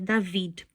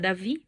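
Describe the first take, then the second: First: The name ends with a D sound. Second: The name ends without a D sound. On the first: This is the Hebrew form of the name. "o nome seria David" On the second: This is the Portuguese form of the name. "em português a gente simplesmente omite o, o D"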